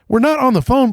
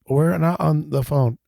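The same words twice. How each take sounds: First: It is said with incredulous disbelief. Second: It is said flatly, deadpan.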